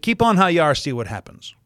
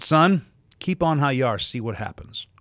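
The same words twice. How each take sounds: First: Mother's warning. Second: Sharp warning call that drops off; mother warning her son across the room, sharp then falling; stern mother's warning. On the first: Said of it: "how did she say that?". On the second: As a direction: warn him from across the room. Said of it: "and she said". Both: Retold or imitated.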